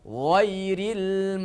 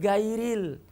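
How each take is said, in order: First: It starts with a thick throaty gh sound. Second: It starts with a hard g sound. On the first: The speaker calls it right. "tetap ghin itu menjaga sifatnya itu tebal" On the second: The speaker calls it wrong. "Itu salah besar kalau kita baca gairil"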